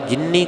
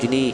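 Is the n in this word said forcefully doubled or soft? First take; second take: forceful; soft. First: The n is doubled and pressed with force. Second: The n is single and said softly. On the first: The speaker calls it wrong. "ਜ਼ਿਆਦਾਤਰ ਆਪਾਂ ਜਿੰਨੀ ਕਰ ਦਿੰਦੇ ਹਾਂ" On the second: The speaker calls it right. "ਸ਼ੁੱਧ ਪਾਠ ਜਿਨੀ ਪੋਲਾ ਹੈ"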